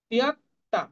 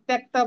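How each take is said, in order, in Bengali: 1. শব্দটি একটি বিভক্ত 'ti-ya' ধ্বনি দিয়ে শুরু হয়। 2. শব্দটি একটি ঘনিষ্ঠ 'tya' গুচ্ছ দিয়ে শুরু হয়। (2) "বাংলা যেরকম ত্যক্তা বলি সেটা কিন্তু বলবো না"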